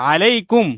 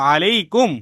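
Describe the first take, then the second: No difference in how they are said.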